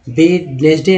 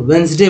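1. हर अक्षर बोला जाता है, पहले 'd' सहित। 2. पहला 'd' और बीच का स्वर छोड़ दिया जाता है। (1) "करेक्ट उच्चारण की बात की जाए तो वेडनेसडे नहीं बोलेंगे" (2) "करेक्ट बोलना है ... तो वेंसडे बोलेंगे"

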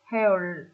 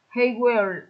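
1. Một âm tiết rút gọn, "will" đọc giảm thành "l". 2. Hai từ đầy đủ, "will" được phát âm rõ ràng.

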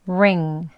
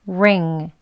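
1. R은 혀에 힘을 주고 발음합니다. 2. R은 혀에 힘을 주고 발음합니다.

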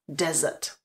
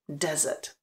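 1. Přízvuk je na první slabice. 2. Přízvuk je na první slabice.

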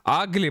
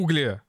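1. Первая гласная звучит как 'a'. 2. Первая гласная звучит как 'oo'. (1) "Вы не учите меня английскому" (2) "Я русский человек и говорю угли"

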